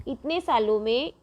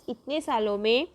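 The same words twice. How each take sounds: The two takes are said the same way.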